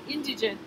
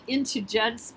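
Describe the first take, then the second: First: It has a d and ends in -ent. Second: It has a t and ends in -ence. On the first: "they can call you indigent" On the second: "I pronounce it intigence because that makes me smile"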